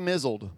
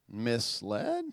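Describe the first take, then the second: First: The word sounds like mizzled, with a z sound. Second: The word sounds like mis-led, with an s sound. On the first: The speaker calls it wrong. "they read it like this" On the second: The speaker calls it right. "you mean misled?"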